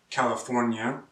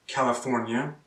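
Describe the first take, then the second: No difference in how they are said.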